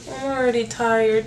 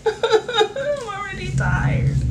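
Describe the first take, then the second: First: Said in the usual way. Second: High, slow, laughing I'm already tired; giggling I'm already tired, much higher. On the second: Real, not acted.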